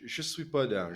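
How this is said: It is said with a European French accent.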